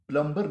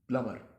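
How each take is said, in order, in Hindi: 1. m के बाद b की आवाज़ बोली जाती है। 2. m के बाद b की आवाज़ नहीं बोली जाती। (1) "बी को आपको निकालना पड़ेगा, प्लम्बर नहीं" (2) "असल तलफ़ुज़ जो है वो इसका प्लम्बर नहीं है बल्कि प्लमर है"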